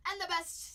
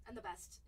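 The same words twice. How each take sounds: First: Loud, higher and the best; louder. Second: Said in the usual way. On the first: Shown as a demonstration. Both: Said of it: "repeated louder".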